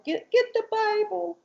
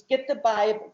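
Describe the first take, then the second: First: Put-on high childlike voice; little girl voice. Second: Said in the usual way. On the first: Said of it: "she's talking like this". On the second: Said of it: "And he's".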